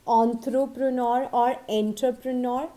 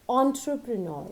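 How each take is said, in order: First: ENTREPRENEUR first as "on-throw-pre-nor", then "en-ter-pre-nor"; two misreadings of entrepreneur, "ontro-" and "enter-"; wrong pronunciations. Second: ENTREPRENEUR as "on-truh-pruh-NOR"; correct pronunciation. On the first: Teacher shows what it is not, entrepreneur as "ontro-" then "enter-prenor". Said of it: "It is not". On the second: Teacher gives what it always is, entrepreneur as "on-truh-pruh-nor". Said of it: "It is always entrepreneur". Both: Shown as a demonstration.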